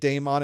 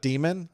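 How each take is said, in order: First: The first syllable sounds like 'day'. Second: The first syllable sounds like 'dee'. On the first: This is the form someone else says is correct. "you should be saying daemon" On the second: This is the form the speaker prefers to use. "I like saying demon though"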